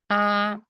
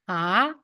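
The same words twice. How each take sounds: First: It is said with the first tone. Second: It is said with the second tone. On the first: "First one" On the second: "the second one"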